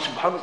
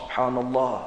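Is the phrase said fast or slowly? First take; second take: fast; slowly. First: The phrase is said quickly and hurriedly. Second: The phrase is said slowly and clearly. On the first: The speaker calls it wrong. "Oh, cepat teman tuh" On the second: The speaker calls it right.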